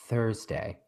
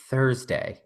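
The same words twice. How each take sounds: First: Thursday said soft and low, drawn out; lightly voiced Patsy from Ab Fab; Patsy bit. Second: Soft, low drawn-out Thursday; a hint of Patsy from Ab Fab; Patsy bit. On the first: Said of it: "Every time I said Thursday". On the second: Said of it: "Romaine doesn't even know what bit I'm doing". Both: Shown as a demonstration.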